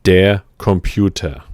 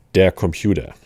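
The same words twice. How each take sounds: First: Der Computer repeated, louder and clearer, with a German ending tuh; German pronunciation, repeated. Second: Der Computer said the German way, with a hard t at the start and no r on the end; German pronunciation. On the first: Teacher repeats the word for learners, louder German pronunciation. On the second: Teacher models a German word for learners, careful German pronunciation. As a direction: der Computer in German, ending kom-pyoo-tuh. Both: Shown as a demonstration. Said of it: "Again, that is".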